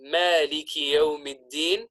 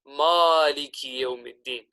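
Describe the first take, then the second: First: The m in Maliki is pronounced light. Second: The m in Maliki is pronounced heavy. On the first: The speaker calls it right. "saying the word Malik in a light fashion" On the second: The speaker calls it wrong. "we make the meme on Malik heavy"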